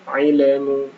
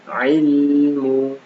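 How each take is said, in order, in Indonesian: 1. Bunyi lam dipantulkan dengan gema. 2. Bunyi lam ditahan dengan halus tanpa gema. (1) "jangan sampai dipandulkan ya" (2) "tapi ilmu"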